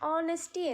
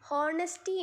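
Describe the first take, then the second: First: The word begins with a vowel, no h sound. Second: The word begins with an audible h sound. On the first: The speaker calls it right. "എച്ച് silent ആണ്. ഓണസ്റ്റി എന്നാണ് correct pronunciation" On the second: The speaker calls it wrong. "ഹോണസ്റ്റി എന്ന് നമ്മൾ pronounce ചെയ്യരുത്"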